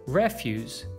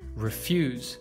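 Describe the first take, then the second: First: The stress is on the first syllable. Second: The stress is on the second syllable. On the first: It is used as a noun. "you should stress the first" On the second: It is used as a verb. "you should stress the second syllable"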